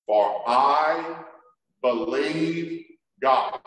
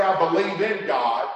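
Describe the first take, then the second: First: "believe God" slow, landing hard on "God"; stress on believe God. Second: "in" lightly stressed in "I believe in God"; wrong version, stress on in. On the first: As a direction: lean on "God", no "in". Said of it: "He didn't say, "I believe in God". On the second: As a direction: give "in" a small push to show the contrast. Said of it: "He didn't say". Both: Shown as a demonstration.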